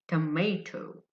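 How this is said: American accent, the middle syllable sounds like 'may'. "The Americans say tomato, tomato. May, may"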